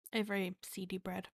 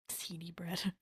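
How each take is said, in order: First: Said in the usual way. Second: Slow whisper through laughter. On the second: Shown as a demonstration. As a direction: breathe it out while laughing.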